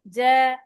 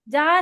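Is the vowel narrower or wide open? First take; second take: narrower; wide open. First: The vowel is said with the mouth less open. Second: The vowel is said with the mouth wide open. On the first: The speaker calls it right. "थोड़ा सा ना मुंह कम खोले" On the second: The speaker calls it wrong. "पूरा मुंह नहीं खोले"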